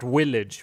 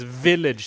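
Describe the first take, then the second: First: The word begins with a W sound. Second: The word begins with a V sound. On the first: The speaker calls it wrong. "It's not a W" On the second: The speaker calls it right. "It's a single V"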